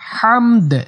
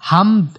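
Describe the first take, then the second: First: The final 'd' ends with a slight echoing bounce. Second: The final 'd' ends flat, with no echoing bounce. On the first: The speaker calls it right. "লাস্টে দাল একটু কলকলা করতে হবে।" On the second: The speaker calls it wrong. "এরকম বলে বলা যাবে না"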